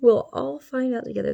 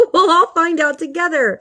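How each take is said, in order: First: Put-on spooky voice, playfully sinister; mock ominous voice. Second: Higher and louder, bursting out of a laugh; laughing exclamation. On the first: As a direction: say it like a campy horror-movie narrator. Repeats the line in a spooky voice. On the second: Pretend. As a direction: toss it out gleefully, right after laughing. Laughing, then says it again spookily.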